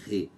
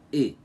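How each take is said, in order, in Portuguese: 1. A sílaba começa com som de h. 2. A sílaba é somente a vogal e fechada. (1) "nós não falamos com o som de re" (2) "e sim e. Como se tivéssemos aqui um circunflexo fechado"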